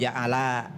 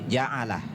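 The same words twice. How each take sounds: First: The vowel is drawn out long. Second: The vowel is kept short. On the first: The speaker calls it wrong. "bukan ja'ala" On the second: The speaker calls it right. "tapi ja'ala disingkat"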